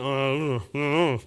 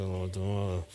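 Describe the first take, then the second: First: A mild groaned I don't know; half-hearted groan of a man who can't name his feelings. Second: Low, quiet mumbled brush-off; husband dodging his wife's question with a teen mumble; sulky teenager mumble. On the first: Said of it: "It comes out as a groan anyway". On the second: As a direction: mumble it as if there is nothing to say. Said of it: "I feel like a teenager". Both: Retold or imitated.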